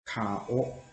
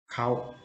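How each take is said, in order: First: Kao drawn out slowly as ka-o, two clear vowels. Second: Kao run together quickly into one syllable, like kow; fast kao. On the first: Teacher showing learners the slow kao, two separate vowels. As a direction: split kao into ka and o, unhurried. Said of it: "When you say slowly". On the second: Teacher showing learners the quick everyday kao, one syllable. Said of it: "But you say faster". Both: Shown as a demonstration.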